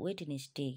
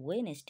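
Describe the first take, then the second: First: The d sound in the middle is pronounced. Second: The d sound in the middle is silent. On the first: The speaker calls it wrong. "এরকম বলে ফেলি ভুল বসত" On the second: The speaker calls it right. "এখানে ডিটা এমনি আসবে"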